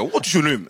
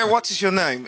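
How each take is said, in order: First: A quick Nigerian "What is your name?" with the words run together; Nigerian accent. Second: A crisp British "What is your name?", pitched up; British accent. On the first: Showing the audience the Nigerian version, in a Nigerian accent. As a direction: say it like a Nigerian would. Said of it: "es de Nigeria". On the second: Showing the audience a British version, in a British accent. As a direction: sound properly British. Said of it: "es británico". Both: Shown as a demonstration.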